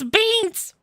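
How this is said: It is said in a very high voice.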